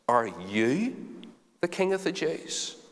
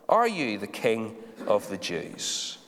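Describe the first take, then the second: First: It is asked in a scornful, disbelieving tone. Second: It is asked in a plain, neutral tone.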